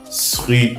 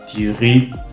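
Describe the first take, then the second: First: The word begins with an s sound. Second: The word begins with a t sound. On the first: "Ce n'est pas sri" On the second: "ou alors tiri"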